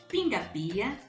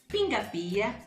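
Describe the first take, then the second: Both takes have the same delivery.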